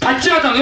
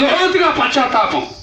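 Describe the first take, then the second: First: Said in the usual way. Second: లోతుగా leaned on, drawn out slowly; slow, press hard on లోతుగా before పశ్చాత్తాపం; preacher dwelling on లోతుగా, slowed; stress on లోతుగా. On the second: Shown as a demonstration. Repeats word with added emphasis.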